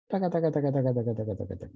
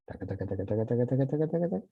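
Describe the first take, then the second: First: Walk the taca pattern downward in pitch; falling. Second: Walk the taca pattern upward in pitch; rising. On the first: Teacher demonstrating a falling line, taca chanted downward. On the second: Teacher demonstrating a rising line, taca chanted upward. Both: Shown as a demonstration.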